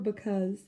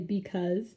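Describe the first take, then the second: First: The first syllable has a reduced 'buh' vowel. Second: The first syllable has a full 'bee' vowel. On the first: "we don't necessarily pronounce it as B, and so it comes out buh" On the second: "sometimes we say because"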